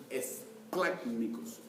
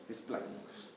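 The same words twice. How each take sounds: First: Esplácnicos, slow, with the stress landing hard on the A of "plác". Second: Esplácnicos repeated almost whispered, the A still marked; soft stressed repeat. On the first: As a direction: say esplácnicos slowly, hitting the A in "plác". (énfasis en la A de esplácnicos, lento) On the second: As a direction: breathe esplácnicos out softly, the A still clear. (esplácnicos casi susurrado, con acento en la A) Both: Shown as a demonstration. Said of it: "con acento en la A".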